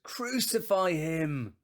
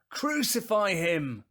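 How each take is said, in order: First: Slow, high, loud cry; long, forceful, raised-pitch yell; crowd shout. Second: Very loud, high, drawn-out yell; full-force, high crowd shout; shouting even louder. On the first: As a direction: shout it as the whole mob, drawing it out. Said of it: "And they all answered". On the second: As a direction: roar it slowly as an insistent mob. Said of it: "they shouted all the louder". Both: Acted.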